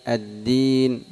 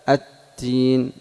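First: The d sound is voiced, with held breath. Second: The d sound is breathy, close to t.

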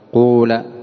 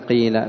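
First: The first vowel is a pure u sound. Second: The first vowel is a pure i sound. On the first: "الثالثة إخلاص ضم أوله" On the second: "الفصحى كسر الأول فتقلب الألف ياء"

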